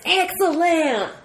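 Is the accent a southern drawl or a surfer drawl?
southern drawl. It is said in a southern American accent. "you probably had the southern accent"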